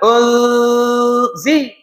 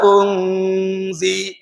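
First: The n merges fully into the z. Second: The n is hidden as a nasal hum. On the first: "kalau baca dengan idrom unzi tu idrom" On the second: "jadi sama tengah"

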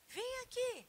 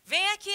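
First: It is said gently, as a mild request. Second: It is said forcefully, as a sharp command. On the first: The speaker is asking, not giving an order. "é imperativo, mas eu não estou ordenando" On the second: The speaker is giving an order. "Aí eu mudo a entonação"

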